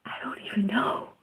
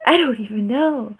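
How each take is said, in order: First: Whispered, fast, bewildered aside. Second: Said in the usual way. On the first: Real, not acted. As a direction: breathe it out under your breath.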